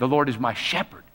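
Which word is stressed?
shepherd. The stress is on the word shepherd.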